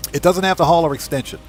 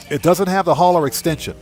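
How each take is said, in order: Both takes have the same delivery.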